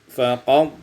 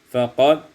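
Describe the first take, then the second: The two takes are said the same way.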